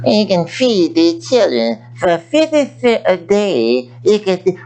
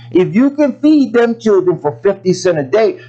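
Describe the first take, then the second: First: Slow, lightly voiced TV charity appeal; a hint of a pleading charity commercial; mock charity ad. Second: Feed pushed up and rising; feed stressed with a rising tune. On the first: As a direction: imitate a slow late-night donation ad. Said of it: "Archie Bunker's daughter". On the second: Real, not acted. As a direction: lean into feed as a challenge. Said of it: "Well, some of you all".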